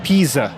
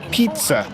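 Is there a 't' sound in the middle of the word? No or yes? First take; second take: no; yes. First: The middle is said with a plain 'z' sound. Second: The middle is said with a 'ts' sound. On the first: The speaker calls it wrong. "not pizza" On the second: The speaker calls it right. "you say pizza"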